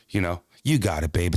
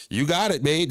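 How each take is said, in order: First: Low, soothing wife voice, sweet on the surface; wife's sweet version. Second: Higher, pointed and demanding; a mock-sweet warning, with an edge; what she really meant. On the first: Retold or imitated. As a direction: gently reassure him. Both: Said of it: "That's what she meant".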